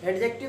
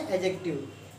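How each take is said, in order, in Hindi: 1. d ध्वनि साफ़ बोली जाती है। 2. d ध्वनि साइलेंट रहती है। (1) "डी तो साइलेंट हो गया, एडजेक्टिव थोड़ी कहेंगे" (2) "क्या बोलेंगे? एडजेक्टिव"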